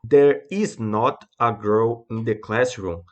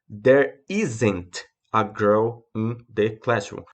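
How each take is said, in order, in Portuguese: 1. "Is not" é dito como duas palavras completas. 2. "Is not" é contraído em uma única palavra. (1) "Olha a diferença de pronúncia entre um e outro" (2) "A única diferença é que está abreviada"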